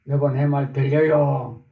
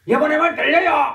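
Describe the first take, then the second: First: It is said somewhat louder than normal. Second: It is said very loudly, almost shouted.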